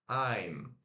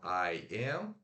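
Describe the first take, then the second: First: The two words are joined into one syllable. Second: Two separate words are said in full. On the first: "Olha que mudou a pronúncia"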